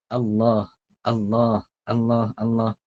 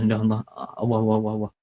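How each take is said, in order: First: Allah with a clear l and a final h, alah; proper Allah, the h sounded; correct pronunciation. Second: Sloppy Allah, awah; wrong pronunciation. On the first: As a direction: say Allah cleanly and firmly. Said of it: "Jangan duk sebut". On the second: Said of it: "Jangan duk sebut Allah". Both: Shown as a demonstration.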